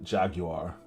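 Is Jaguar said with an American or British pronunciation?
British. Jaguar is said the British way.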